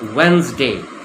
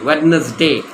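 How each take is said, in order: First: The D sound in the middle is silent. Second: The D sound in the middle is pronounced. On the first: The speaker calls it right. "The D is silent. It's pronounced as if it's Wednesday" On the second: The speaker calls it wrong. "It's not Wednesday"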